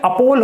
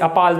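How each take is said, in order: First: The second vowel sounds like 'aw' in law. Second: The second vowel sounds like 'a' in father. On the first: The speaker calls it right. "ये अपोल होगा" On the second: The speaker calls it wrong. "अपाल मत पढ़ना इसे"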